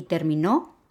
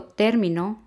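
First: Terminó with the stress on final NÓ; stress on last syllable. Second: Término with the stress on TÉR; stress on first syllable. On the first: Teacher showing students the different word terminó, stress on final NÓ. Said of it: "es diferente". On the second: Teacher showing students how término differs by tonal accent, stress on TÉR. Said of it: "al darle la entonación a alguna sílaba". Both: Shown as a demonstration.

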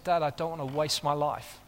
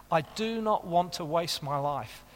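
First: Said in the usual way. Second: "not" said as a separate, weighted word; stress on not. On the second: Retold or imitated. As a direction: lean hard on "not" in "I do not want". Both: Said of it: "he's talking like this to me".

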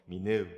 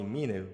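First: "Minu" with the stress moved to the last syllable, mi-NU; other name pronunciation. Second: "Minu" with the stress on the first syllable, MI-nu; name pronunciation. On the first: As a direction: say "Minu" as mi-NU, leaning on the second syllable. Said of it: "while my friends call me Minu". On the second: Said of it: "emphasizing the first syllable". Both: Shown as a demonstration.

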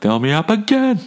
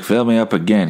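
First: Much higher, insistent repeat of Fill me up again; whiny high-pitched Fill me up again, pushing; demanding refill. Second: Said in the usual way. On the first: Retold or imitated. Customer demanding a refill from the waiter, high and whiny. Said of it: "I'm like". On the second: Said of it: "I was like".

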